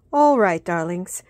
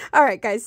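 First: A light British "All right, darlings"; greeting viewers in an accidental British accent. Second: Said in the usual way. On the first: Real, not acted. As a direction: slip into a chirpy British accent. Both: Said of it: "I just started talking in a British accent".

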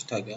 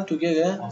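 First: "تاگه" with an open "a" in the first syllable; corrected pronunciation. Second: "تو گره" said with an "u" in the first syllable, as a question; doubtful pronunciation. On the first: Teacher accepts the class's correction, "تاگه" with an open a, softly. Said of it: "تلفظش تاگه". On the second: Teacher checks his pronunciation with the class, "تو گره" with oo, doubtful. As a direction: try out "تو گره" with an oo sound, unsure. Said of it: "درست تلفظ درست گفتم؟". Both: Shown as a demonstration.

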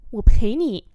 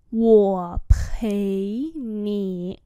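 First: Said in the usual way. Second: Wo pei nǐ very drawn out; slow demonstration. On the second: Shown as a demonstration. Teacher repeats "Wo pei nǐ" for learners, very slowly. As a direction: hold each syllable of Wo pei nǐ.

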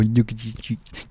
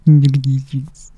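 First: Said in the usual way. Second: Put-on gushing baby talk. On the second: Cooing over cheeks, repeated louder.

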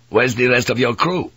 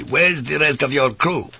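First: Pointed question from a hostile priest; stern demand. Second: Higher-pitched, insistent repeated demand; insistent interruption. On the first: Priest questioning the pilot about his crew, stern demand. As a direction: press him for an answer. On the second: Priest cutting off the pilot's plea, insistent demand. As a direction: cut in and demand an answer. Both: A narrator's reading.

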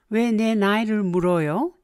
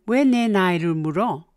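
First: Said in the usual way. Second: 왜 내 나이를 물어 said short and blunt, no polite 요 ending; 왜 내 나이를 물어 with a curt, blunt edge; blunt form. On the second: Shown as a demonstration. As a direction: drop the politeness, ask it bluntly. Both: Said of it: "Blunt form".

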